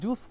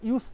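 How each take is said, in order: First: The word begins with a 'j' sound. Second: The word begins with a 'y' sound. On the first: The speaker calls it wrong. "আমরা কি জুস করব" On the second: The speaker calls it right. "না ইউজ করব? ... এইটা উচ্চারণ হবে।"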